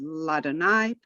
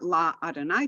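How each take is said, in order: First: The two 'a' vowels merge into one. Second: Two separate 'a' vowels are sounded. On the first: The speaker calls it right. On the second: The speaker calls it wrong. "Not La Adonai"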